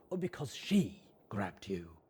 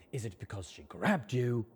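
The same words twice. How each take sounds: First: She leaned on, falling; weight the word she, not grabbed; stress on she. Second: Grabbed leaned on, falling; weight the word grabbed, not she; stress on grabbed. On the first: Rampage probing the colt, stress on she. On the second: Rampage probing the colt, stress on grabbed. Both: Acted. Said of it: "Rampage probing which part matters".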